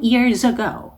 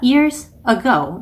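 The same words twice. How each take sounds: First: The two words are linked smoothly together. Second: The two words are separated by a break. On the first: The speaker calls it right. "연음을 넣어주셔야 더 자연스럽게 들립니다" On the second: The speaker calls it wrong. "이렇게 끊어 읽는 것보다는"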